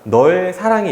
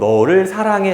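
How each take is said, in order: First: The object word is squeezed into one syllable. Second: The object word keeps both of its syllables.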